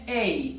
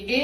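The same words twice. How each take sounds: First: اے as a gliding "ey-ee"; correct English A. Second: اے as one pure, unglided Urdu vowel; local-accent letter A, a plain monophthong "e"; wrong Urdu-style A. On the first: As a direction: say اے as a drawn-out diphthong ending in "ee". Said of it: "بلکہ یہ ہے اے". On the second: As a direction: say اے with a level "e", no glide. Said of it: "یہ اے نہیں ہے". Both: Shown as a demonstration.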